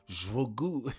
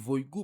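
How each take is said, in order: First: The name starts with a sh-like sound. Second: The name starts without a sh-like sound. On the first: "si nous t'a prononcé là, nous t'a dit Jvogou" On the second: "m'a dit Voygou parce que C H a pas qu'à prononcer là"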